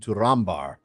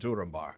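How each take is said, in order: First: The stress falls on the second syllable. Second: The stress falls on the first syllable. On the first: The speaker calls it right. "it's actually Turin Turambar" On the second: The speaker calls it wrong. "if you stick with the old"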